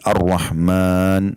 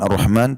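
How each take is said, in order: First: The vowel after the m is long. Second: The vowel after the m is short. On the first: The speaker calls it right. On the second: The speaker calls it wrong.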